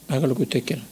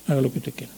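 Both takes have the same delivery.

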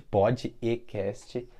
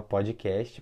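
First: "pod e cast" split into three slow parts, pod, e, cast; split into syllables. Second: Said in the usual way. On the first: Shown as a demonstration.

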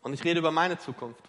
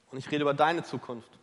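First: Meine stressed with a falling tune. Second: Deine stressed with a falling tune. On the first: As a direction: lean on meine. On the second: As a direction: turn it to them, lean on deine. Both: Shown as a demonstration.

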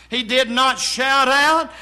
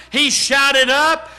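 First: "out" stressed as the word being denied. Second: "up" hit hard as the correction; emphatic preaching with "up" punched; stress on up. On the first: Preacher ruling out a wrong reading, stress on "out". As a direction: lean firmly on "out" to reject it. Corrects out to shouted up. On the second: Preacher giving the right reading to the congregation, stress on "up". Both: Shown as a demonstration.

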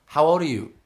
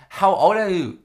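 First: Imitated masseuse, higher and louder; insistent masseuse. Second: Imitated masseuse, much higher and louder; exasperated masseuse. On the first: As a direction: press the question as the masseuse. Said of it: "And she's like". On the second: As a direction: repeat the question loudly and insistently as the masseuse. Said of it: "And she goes".

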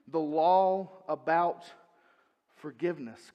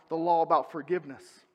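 First: Solemn emphatic restatement; slow, weighty repeat. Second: Said in the usual way. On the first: Shown as a demonstration.

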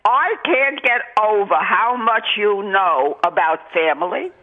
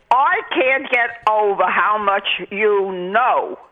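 First: Said in the usual way. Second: Whispered, awed repeat; whispering the praise in awe. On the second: Real, not acted. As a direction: drop to a breathless whisper of amazement. Caller repeats praise, now whispered.

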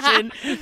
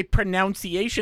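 First: "pronunciation" said as pro-NUN-see-ay-shun, laughing; corrected pronunciation. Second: "pronunciation" said as pro-NOUN-see-ay-shun; mocked mispronunciation. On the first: Shown as a demonstration. Correcting a friend through laughter, "pronunciation" said with NUN. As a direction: say "pronunciation" with NUN in the second syllable. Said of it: "instead of pronunciation". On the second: Objecting to a friend's word, "pronunciation" mispronounced with NOUN. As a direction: put a "noun" inside "pronunciation". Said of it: "I don't like when you say pronunciation".

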